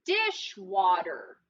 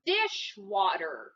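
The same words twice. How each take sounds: First: Teacher echoing Dishwater slowly; slow repeat. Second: Dishwater drawn out slowly and low; slow, low model. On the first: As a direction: say Dishwater again, drawn out. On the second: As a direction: stretch out Dishwater for the class. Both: Shown as a demonstration. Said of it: "What's the word?".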